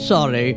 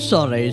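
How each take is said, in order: Both takes have the same delivery.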